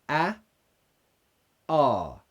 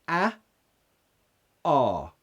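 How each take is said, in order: Both takes have the same delivery.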